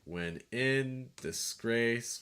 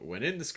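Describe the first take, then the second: First: It is read in a strict, even beat. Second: It is read with loose, natural speech rhythm. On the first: The speaker calls it wrong. "if you were just going for like straight meter" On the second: The speaker calls it right. "if you actually read it, not being so robotic"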